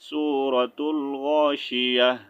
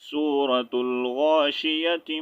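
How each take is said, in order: First: The last word ends with an h sound. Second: The last word ends with a t sound. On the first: The reading stops after the name. "अगर स्टॉप करके पढ़ेंगे" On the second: The reading continues without stopping. "अगर मिलाकर पढ़ेंगे"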